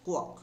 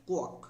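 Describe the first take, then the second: No difference in how they are said.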